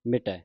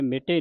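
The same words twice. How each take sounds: First: ਮਿਟੈ ending in an open "ai"; ਮਿਟੈ as "mi-tai", the corrected reading. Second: ਮਿਟੇ ending in a closed "ay"; ਮਿਟੇ as "mi-tay", the mistaken reading. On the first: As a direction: open up the last vowel of ਮਿਟੈ. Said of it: "ਮਿਟੈ ਦੁਲਾਵਾਂ ਲੱਗੀਆਂ". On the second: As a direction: end ਮਿਟੇ on a narrow e. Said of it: "ਨਹੀਂ ਪੜ੍ਹਨਾ". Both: Shown as a demonstration.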